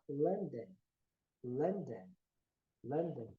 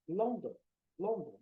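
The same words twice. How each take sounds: First: "London" as "Lan-den", o turned to a; low, separate models of "London" with an uh vowel; correct pronunciation. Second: "London" with round o's, "Lon-don"; common mispronunciation. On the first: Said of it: "o O pelo". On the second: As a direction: say "London" as spelt, Brazilian o's. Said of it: "Muitas pessoas podem falar". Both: Shown as a demonstration.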